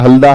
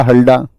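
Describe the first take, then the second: First: Tongue against the teeth for the द in "हल्दा"; dental D. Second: "हल्डा" with a hard retroflex ड. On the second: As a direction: curl the tongue back for the ड in "हल्डा". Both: Shown as a demonstration. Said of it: "English और हिंदी का translation".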